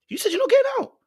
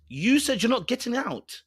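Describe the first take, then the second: First: Much higher, louder repeat; emphatic repeat. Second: Said in the usual way. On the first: Real, not acted. Host repeating to the guest, higher and louder. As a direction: hit it harder the second time. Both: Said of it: "repeated line".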